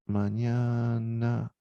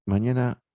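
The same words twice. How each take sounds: First: Mañana drawn out very slowly, each sound held; slowly stretched word. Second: Said in the usual way. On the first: Shown as a demonstration. Teacher spells the word out for students, slowly stretched. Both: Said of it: "dice acá".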